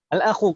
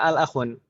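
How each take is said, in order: First: The word ends in a vowel without N. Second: The word ends with an added N sound. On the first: The speaker calls it right. "huruf terakhirnya tidak boleh tanwin" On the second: The speaker calls it wrong. "Kenapa nggak al-akhun?"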